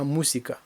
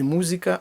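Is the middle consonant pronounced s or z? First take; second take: s; z. First: The middle consonant is an s sound. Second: The middle consonant is a z sound. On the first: The speaker calls it right. "немає звука «з»... а мусіка" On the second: The speaker calls it wrong. "Не музика"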